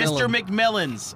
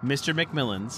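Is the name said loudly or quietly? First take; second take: loudly; quietly. First: The name is shouted loudly. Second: The name is said calmly and quietly. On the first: The speaker calls it wrong. "You do not have to scream" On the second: The speaker calls it right. "say that again, but calmer"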